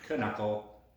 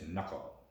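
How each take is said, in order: First: The word begins with a sounded K. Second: The word begins with a silent K. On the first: The speaker calls it wrong. "It's not knuckle" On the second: The speaker calls it right. "the K is silent in knuckle"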